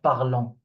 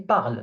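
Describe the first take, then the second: First: The word ends with an audible extra final syllable. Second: The word ends without a pronounced final vowel. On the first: The speaker calls it wrong. "not parlons" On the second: The speaker calls it right. "So I say parle"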